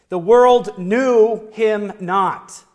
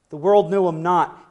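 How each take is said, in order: First: Slow and loud, leaning on world; slow solemn emphasis. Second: Said in the usual way. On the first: Shown as a demonstration. Preacher reading scripture slowly and loudly. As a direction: let each word land heavily. Scripture quote read with weight.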